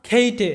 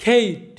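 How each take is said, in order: First: "খেইটে" with the final e voiced; wrong pronunciation. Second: "খেইট" ending on t, final e silent; correct pronunciation. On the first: Teacher showing what not to say, final vowel in "খেইটে". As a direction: add a sounded e after the t in "খেইটে". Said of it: "এরকম উচ্চারণটা আমরা করব না". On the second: Teacher modelling the silent e, clean final t in "খেইট". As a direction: stop "খেইট" at the t, no vowel after. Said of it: "আমরা উচ্চারণটা করব". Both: Shown as a demonstration.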